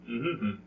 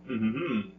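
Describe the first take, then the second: No difference in how they are said.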